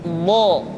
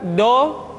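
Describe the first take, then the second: First: The consonant is soft, lateral and drawn out. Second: The consonant is a short, hard d sound. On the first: The speaker calls it right. "tapi lo" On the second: The speaker calls it wrong. "Tidak diucapkan do"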